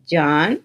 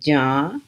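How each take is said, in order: First: The word ends with a full n sound. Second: The word ends with a nasalized vowel.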